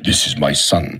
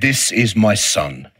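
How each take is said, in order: First: It is said in a deep Darth Vader voice. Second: It is read in a normal speaking voice.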